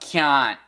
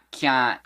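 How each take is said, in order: Both takes have the same delivery.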